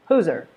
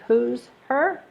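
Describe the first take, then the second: First: The H is dropped, words run together. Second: The H in 'her' is clearly pronounced. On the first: "Her becomes er" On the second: "instead of saying"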